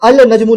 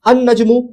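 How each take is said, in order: First: The 'l' of 'al' is clearly pronounced. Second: The 'l' is silent; the 'n' is doubled. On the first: The speaker calls it wrong. "अल नजमू नहीं बोल रहे हैं" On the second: The speaker calls it right. "लाम प्रोनाउंस नहीं"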